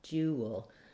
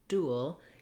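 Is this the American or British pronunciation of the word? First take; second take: British; American. First: It is said with a y sound after d. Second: It is said without a y sound after d. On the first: "When we switch to British English for the word dual, ... we have a y sound in there" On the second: "So that's American English, that we say dual for these words"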